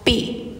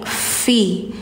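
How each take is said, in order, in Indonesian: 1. Kata ini dimulai dengan bunyi p. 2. Kata ini dimulai dengan bunyi f yang berhembus. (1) "Jadi bukan pi" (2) "tapi fi"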